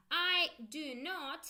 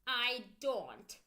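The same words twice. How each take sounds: First: Slow, separated full form; careful full form do not. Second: Said in the usual way. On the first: Shown as a demonstration. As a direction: lay out each word slowly. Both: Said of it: "So let's go".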